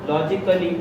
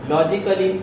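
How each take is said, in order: The two takes are said the same way.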